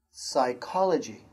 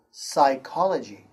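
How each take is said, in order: First: "Psychology" repeated with no P sound; silent P again. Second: "psychology" said as "sy-KOL-o-gee" with no P; silent P. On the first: Teacher repeating "Psychology" with a silent P. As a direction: say "Psychology" beginning on the S. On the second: Teacher showing the silent P in "psychology". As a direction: start "psychology" straight on the S sound. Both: Shown as a demonstration. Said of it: "P is silent".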